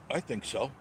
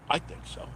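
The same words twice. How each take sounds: First: Said in the usual way. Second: Breathy whisper, no voice; whispered repeat. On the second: Real, not acted. Repeating his answer to himself in a whisper. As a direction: breathe it back to yourself.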